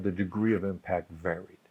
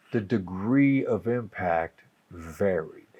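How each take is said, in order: First: "degree" lifted softly, said quietly; soft restatement. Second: Slow, with "degree" leaned on hard; slow, deliberate emphasis on "degree"; stress on degree. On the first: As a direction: drop the volume and restate it gently. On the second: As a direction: draw out "degree" and land it with weight. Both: Shown as a demonstration.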